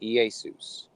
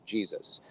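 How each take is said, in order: First: "Iesus" said ee-ay-soos; Greek pronunciation. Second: Said in the usual way. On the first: Shown as a demonstration. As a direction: open "Iesus" on vowels, no j. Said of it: "doing phonetics". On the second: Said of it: "sounds like Jesus".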